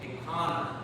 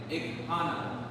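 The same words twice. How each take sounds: First: The h sound is faint and almost disappears. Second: The h sound is pronounced clearly and fully. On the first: This is how it sounds in everyday speech. "the H gets silent just a little bit" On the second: This is the careful textbook form. "in proper textbook terms, we should be saying ikana"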